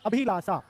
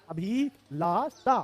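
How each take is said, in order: First: Said in the usual way. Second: Abhilasha very slowly, "a-bhi-laa-saa"; drawn-out syllables. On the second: Shown as a demonstration. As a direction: stretch and separate each syllable of Abhilasha. Teacher sounds out the spelling.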